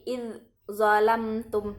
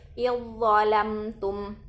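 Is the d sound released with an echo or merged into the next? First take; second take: echo; merged. First: The d is released separately with an echoing bounce. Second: The d merges directly into the following consonant. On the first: The speaker calls it wrong. "tidak perlu lagi ... itu salah" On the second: The speaker calls it right. "Jadi langsung dia masuk"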